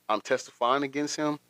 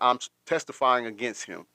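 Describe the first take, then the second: First: The voice rises at the end like a question. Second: The voice falls at the end like a statement. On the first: The speaker sounds unsure, as if asking. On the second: It is a plain statement.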